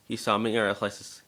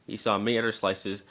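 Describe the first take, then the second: No difference in how they are said.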